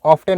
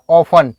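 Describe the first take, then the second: First: Often with the t said aloud, like off-ten; often pronounced with a clear t; wrong pronunciation. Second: Often with a silent t, like offen; often said the right way, t silent; correct pronunciation. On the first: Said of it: "इसको आप often नहीं पढ़ना है". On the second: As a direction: drop the t in often. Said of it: "टी silent है". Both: Shown as a demonstration.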